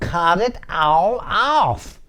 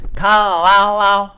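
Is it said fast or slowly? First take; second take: slowly; fast. First: It is said slowly and clearly. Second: It is said fast and slurred.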